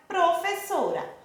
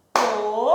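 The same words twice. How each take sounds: First: Said in the usual way. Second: PRO-FES-SO-RA, each syllable separated by a pause. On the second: Shown as a demonstration. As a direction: say Professora as if clapping out each syllable. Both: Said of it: "Quantas vezes a Pro Williane bateu a mãozinha?".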